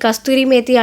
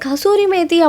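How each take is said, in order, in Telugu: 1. మొదటి పదంలో 't' శబ్దం ఉంది: kasturi. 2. మొదటి పదంలో 't' శబ్దం లేదు: kasuri. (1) "నా నార్త్ ఇండియన్ ఫ్రెండ్స్ చాలామంది దీన్ని కస్తూరి మేతి, కస్తూరి మేతి అంటారు" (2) "అది కసూరి మేతి అబ్బా! సరిగ్గా ప్రొనౌన్స్ చేయడం నేర్చుకోండి"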